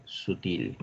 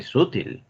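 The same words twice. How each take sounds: First: "sutil" stressed at the end, su-TIL; slow, measured "sutil" leaning on TIL; stress on last syllable. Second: "sutil" stressed up front, SÚ-til; wrong first-syllable stress. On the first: Teacher corrects the class, "sutil" stressed as su-TIL. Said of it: "No, se dice sutil". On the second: Teacher shows the class the wrong way, "sutil" as SÚ-til. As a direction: hit SU in "sutil", let til drop. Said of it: "no se dice sutil". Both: Shown as a demonstration.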